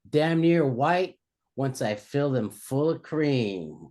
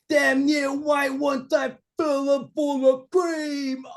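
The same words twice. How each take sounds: First: It is said in the speaker's normal voice. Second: It is said in a put-on impression voice.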